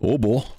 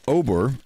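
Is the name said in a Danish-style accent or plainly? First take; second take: Danish-style; plainly. First: The name is said in an imitated Danish accent. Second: The name is said in a plain English accent.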